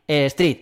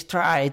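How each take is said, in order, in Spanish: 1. La vocal suena como 'ee'. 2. La vocal suena como 'eye'. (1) "se dice street" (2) "ya te pueden decir a ti que si stride, que si no sé qué. Mentira"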